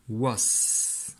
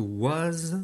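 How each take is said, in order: First: "was" ending in a held s; long hissed final s on "was"; voiceless ending. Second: "was" ending in a buzzed z; voiced final z on "was". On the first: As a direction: say "was" as wass. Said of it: "je veux que was chante". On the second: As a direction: say "was" as waz. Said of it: "chante was". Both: Shown as a demonstration.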